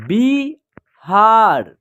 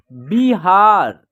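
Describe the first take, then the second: First: बिहार broken into बि and हार with a gap; very slow two-part बिहार; split syllables. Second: बिहार joined into one drawn-out word; blended word. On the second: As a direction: say बिहार whole, slowly, no gap. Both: Shown as a demonstration. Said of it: "हम दूसरा तरीका देखिए".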